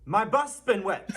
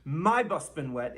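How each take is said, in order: First: "my bus been wet" with the weight on "bus"; right stress. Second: "my bus been wet" with the weight on "my"; wrong stress. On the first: Teacher giving the correct form, stress on bus. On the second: Teacher showing the common error, mock wrong stress. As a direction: show the wrong stress, leaning on "my". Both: Shown as a demonstration. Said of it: "people put the stress on the wrong syllable".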